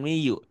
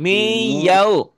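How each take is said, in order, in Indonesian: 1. Suku kata kedua adalah vokal 'yu' biasa. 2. Suku kata kedua adalah 'yau' dengan diftong. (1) "bukan miyu"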